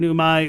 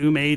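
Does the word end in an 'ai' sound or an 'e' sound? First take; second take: ai; e. First: The word ends in an 'ai' sound. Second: The word ends in an 'e' sound.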